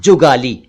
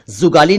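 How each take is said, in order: First: जुगाली said as "jugaali"; correct j sound. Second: जुगाली said as "zugaali"; wrong z sound. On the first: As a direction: begin जुगाली with j, not z. (जुगाली का सही उच्चारण, ज से) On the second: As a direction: begin जुगाली with z instead of j. (जुगाली का ग़लत उच्चारण, ज़ से) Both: Shown as a demonstration. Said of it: "जुगाली नहीं".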